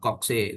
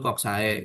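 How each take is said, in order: First: It is pronounced the anglicized English way. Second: It is pronounced the classical Latin way. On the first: "orang Inggris nyebutnya ini kokse" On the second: "yang beneran Latin kamu akan dengar itu koksae"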